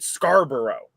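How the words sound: It is said with a Canadian pronunciation. "but we pronounce it Scarborough"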